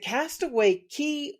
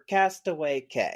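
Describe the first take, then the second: First: The last word rhymes with 'see'. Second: The last word rhymes with 'say'. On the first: "Is it Castaway Key" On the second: "or Castaway K?"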